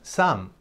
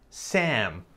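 First: The vowel is not the 'cat' vowel. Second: The vowel is the open 'cat' vowel. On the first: The speaker calls it wrong. "ten cuidado porque no es Sam" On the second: The speaker calls it right. "Correcto, Sam. ... Este es un sonido que no existe en español"

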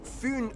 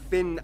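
First: The name is pronounced with a Danish pronunciation. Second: The name is pronounced like the English word fin. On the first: The speaker calls it right. "It is connected to Fyn Island" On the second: The speaker calls it wrong. "not Finn Island"

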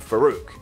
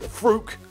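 First: The name is said with two full syllables. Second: The name is squeezed into one syllable. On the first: "everyone kept calling him Farouk" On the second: "Most people at the time pronounced it Frook. That was stupid"

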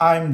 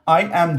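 First: The words merge into one short syllable. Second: Both words are said fully and separately. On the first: "Kısaltabilirim" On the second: "I am diyoruz"

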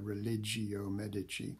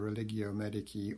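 First: It is said with a medieval pronunciation. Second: It is said with a modern pronunciation.

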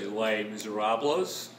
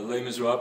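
First: It is said in an Australian accent. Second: It is said in the speaker's usual, non-Australian accent.

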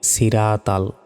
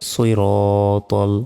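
First: The first consonant is a plain, light s. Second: The first consonant is a heavy, emphatic s. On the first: The speaker calls it wrong. "অনেকে বলি সিরাতাল, সিরাতাল নয়" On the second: The speaker calls it right. "সজ্জের সই, সৈরতল"

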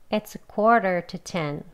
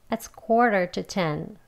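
No difference in how they are said.

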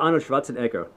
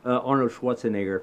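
First: The name is said with a non-American pronunciation. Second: The name is said with an American pronunciation. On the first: The speaker calls it right. "Yes, I'm saying it correctly" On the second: The speaker calls it wrong. "for you guys who say it in American"

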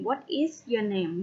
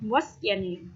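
First: Said clearly, with each word said separately. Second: Said quickly, with 'what is' contracted. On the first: "ถ้าพูดให้ชัดเจนก็จะเป็น" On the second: "ถ้าพูดเร็วๆก็จะเป็น"

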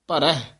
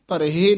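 First: The final vowel is pronounced lightly and subtly. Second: The final vowel is pronounced fully and clearly. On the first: The speaker calls it right. "ਰਾਰੇ ਦੇ ਉੱਤੇ ਨਾ ਸੂਖਮ ਰੂਪ ਦੇ ਵਿੱਚ ਦਲਾਵਾਂ ਬੋਲਦੀਆਂ ਹਨ" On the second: The speaker calls it wrong. "ਭਰਹਿ ਨਹੀਂ ਕਹਿਣਾ"

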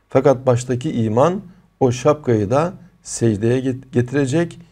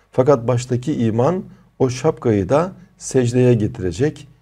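No difference in how they are said.

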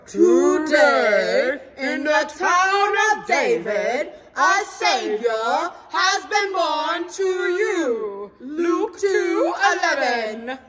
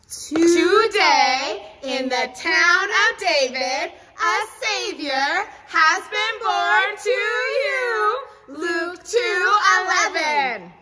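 First: It is said in a deep, kingly voice. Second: It is said in a normal voice.

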